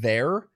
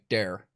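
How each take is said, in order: First: The word begins with a soft TH sound. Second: The word begins with a hard D sound. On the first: "If I were to say the word there" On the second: "it would sound more like there. Like we put a lot of there. D's in the place D, of THs"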